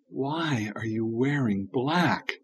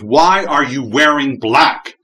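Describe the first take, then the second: First: It is said in a calm tone. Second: It is said in an angry tone.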